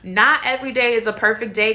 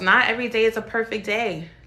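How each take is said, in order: First: It is said loudly. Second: It is said at normal volume.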